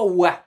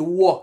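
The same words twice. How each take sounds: First: It is made without an open, guttural throat. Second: It is made with an open, guttural throat. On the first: The speaker calls it wrong. "c'est pas wa" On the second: The speaker calls it right. "C'est très guttural"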